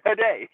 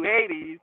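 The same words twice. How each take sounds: First: Hades said huh-DAY, stress on the second syllable; European pronunciation. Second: Said in the usual way. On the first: Shown as a demonstration. Teasing viewers with the foreign way, Hades as huh-DAY. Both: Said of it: "you don't say it like we do".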